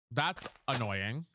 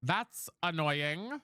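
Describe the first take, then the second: First: That's annoying dragged out low; slow, annoyed drawl. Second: That's annoying dragged out level; slow, flat drawl. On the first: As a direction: sigh it out, fed up. Drawn out. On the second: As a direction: drag it out again, resigned. Drawn out again. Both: Real, not acted.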